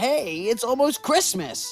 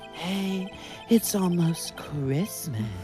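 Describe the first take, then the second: First: It is said in a plain reading voice. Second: It is said in a put-on sexy voice.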